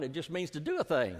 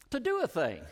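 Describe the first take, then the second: First: Said in the usual way. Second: "do" punched, higher and stronger; stress on do. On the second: Shown as a demonstration. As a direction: lift and hit "do" in "To do a thing".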